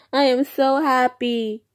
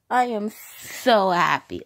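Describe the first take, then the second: First: High, loud happy squeal; gushing with delight over the milestone; excited. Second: Slower, settled heartfelt repeat; calm, sincere thanks to viewers. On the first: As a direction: burst out with joy. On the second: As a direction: let the happiness sink in. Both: Real, not acted. Repeats happy line twice.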